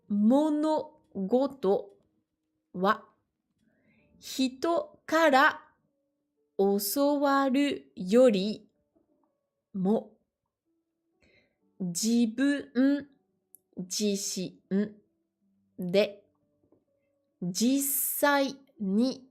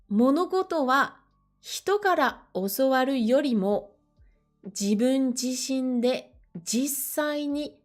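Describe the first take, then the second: First: The sentence is read at a slow pace. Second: The sentence is read at a faster pace. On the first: "je l'ai lu volontairement euh, lentement pour les plus débutants" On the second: "Je le relis un petit peu plus rapidement"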